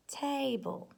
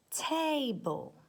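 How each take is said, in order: First: "table" repeated high and clear; "table" again higher, falling; careful word read. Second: "table" said high, first syllable tay drawn out; careful word read. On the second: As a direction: read "table" clearly, higher. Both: Shown as a demonstration.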